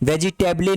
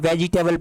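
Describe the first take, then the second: First: The word ends with an extra vowel sound. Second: The word ends on the l sound. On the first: The speaker calls it wrong. "ई word silent है, वेजिटेबल नहीं पढ़ते" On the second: The speaker calls it right. "इसको वेजिटेबल पढ़ते हैं"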